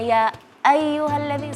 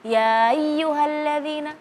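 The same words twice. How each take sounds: First: The glottal stop before ayyuha is clearly articulated. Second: The glottal stop before ayyuha is barely audible. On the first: The speaker calls it right. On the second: The speaker calls it wrong. "seolah-olah tidak ada"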